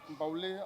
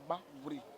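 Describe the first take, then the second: First: The middle consonant is an L sound. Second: The middle consonant is an R sound. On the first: This is the outsiders' form of the name. The speaker calls it wrong. "cette appellation vient des Blancs" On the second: This is the original local form of the name. The speaker calls it right. "en vraie prononciation à Tchan"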